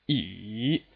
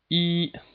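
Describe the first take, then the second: First: The pitch dips low, then rises again. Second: The pitch stays level and high throughout. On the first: "it starts from two... drops to one... all the way up to four" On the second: "From five to five, that's the first tone"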